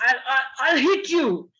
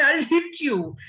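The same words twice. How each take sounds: First: A louder mock threat from a father; scolding father. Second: Mock threat from a kid aping the dad; child copying the father. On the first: Parent threatens child, mock angry father. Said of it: "Like if your father would say". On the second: Child mimics scolding father, light mock threat. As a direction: copy the dad's threat like a cheeky child. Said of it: "pick up a little stick and say".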